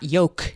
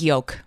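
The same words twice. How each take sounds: First: No L sound is heard before the k. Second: A faint L sound is heard before the k. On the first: The speaker calls it wrong. "not yolk" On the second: The speaker calls it right. "I think I throw a little L in there, like in parenthesis, like it's barely there"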